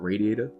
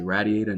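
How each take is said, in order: First: It is said in the other, non-Queens way. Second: It is said in the speaker's Queens way. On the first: "not radiator" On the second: "I say radiator"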